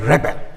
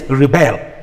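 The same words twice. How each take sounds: First: The stress is on the first syllable. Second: The stress is on the second syllable. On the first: It names a person who revolts. "he is a rebel" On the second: It asks someone to refuse. "it shifts to the second syllable"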